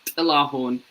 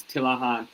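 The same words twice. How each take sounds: First: Tillahun said slowly, ending in "hoon"; proper name pronunciation. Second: Said in the usual way. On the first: Shown as a demonstration. Comedian teaching people the name, Tillahun pronounced slowly and carefully. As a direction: give Tillahun carefully, syllable by syllable. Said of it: "it's pronounced Tillahun". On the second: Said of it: "but it's pronounced Tillahun".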